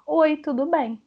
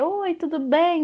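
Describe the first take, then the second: First: Said in the usual way. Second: "Oi, tudo bem?" higher and drawn out; entonação expressiva. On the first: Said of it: "Ela vai digitar como ela fala". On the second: Shown as a demonstration. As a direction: stretch "Oi, tudo bem?" slowly with a lifted, expressive tune. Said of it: "Você tem que dar entonação". ("Oi, tudo bem?" com entonação aguda e alongada)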